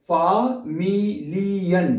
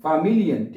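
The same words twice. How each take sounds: First: "familien" stretched very slowly, every letter sounded; drawn out syllable by syllable. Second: Said in the usual way. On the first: Shown as a demonstration. Teacher sounding every letter of "familien", very slowly. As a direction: spell "familien" out aloud, no silent letters. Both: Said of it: "देखें".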